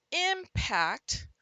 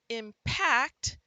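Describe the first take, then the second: First: "impact" punched loud and high on its first syllable; stress on first syllable. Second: "impact" with a light start and a loud, punched second syllable; stress on second syllable. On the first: Teacher gives students the noun homograph, first syllable of "impact" stressed. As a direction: hit the front of "impact", drawn out. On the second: Teacher gives students the verb homograph, second syllable of "impact" stressed. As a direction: hit the back of "impact". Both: Shown as a demonstration. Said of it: "practice these with the punch".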